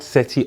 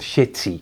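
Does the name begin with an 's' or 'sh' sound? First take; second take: s; sh. First: The name begins with an 's' sound. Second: The name begins with an 'sh' sound. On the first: The speaker calls it wrong. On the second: The speaker calls it right.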